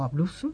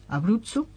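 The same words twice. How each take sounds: First: The word is pronounced the Spanish way. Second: The word is pronounced the Italian way.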